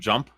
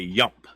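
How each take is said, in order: First: The word begins with a J sound. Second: The word begins with a Y sound. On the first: "instead of" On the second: "they pronounce the J as a Y"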